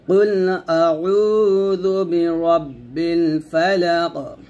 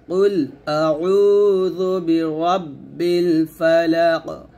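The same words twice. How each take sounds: Both takes have the same delivery.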